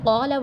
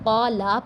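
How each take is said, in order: First: The final vowel is kept short. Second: The final vowel is stretched long. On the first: The speaker calls it right. "असल में कौला वर्ड होता है" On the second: The speaker calls it wrong. "किसी हरफ को इसकी असल मिकदार से बढ़ा कर पढ़ना"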